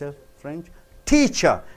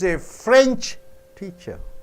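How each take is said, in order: First: The stress falls on the word teacher. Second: The stress falls on the word French. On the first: The teacher comes from France. "She is coming from France" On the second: The teacher teaches the French language. "When you stress on French teacher, the teacher teaches you French"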